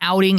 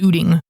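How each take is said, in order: First: The first vowel sounds like 'out'. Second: The first vowel sounds like 'boot'. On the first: The speaker calls it right. "instead of an outing" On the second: The speaker calls it wrong. "it's an ooting"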